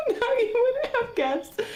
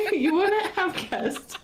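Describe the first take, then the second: First: "now you wouldn't have guessed" still high and wobbly from the giggles; recovering from laughter. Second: "so now you wouldn't have guessed" slowed and breaking into laughter; trying to talk through helpless laughter; laughing. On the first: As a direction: pull yourself together but still giggly. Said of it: "try to say it real quick". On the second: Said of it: "broke crying". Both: Real, not acted.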